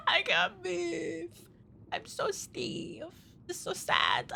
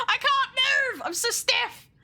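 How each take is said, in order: First: Slow, hushed, fading whimper; soft, drawn-out pretend sadness; pitiful mock lament. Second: High-pitched comic wail; exaggerated, squealed complaint; mock distress. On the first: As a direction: play it feebly sorry for yourself. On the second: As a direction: cry out in playful helplessness. Comic lament about stiff model.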